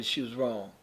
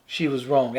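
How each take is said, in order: First: Softer repeat. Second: Said in the usual way. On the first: Real, not acted. Repeats verdict, drops to near hush.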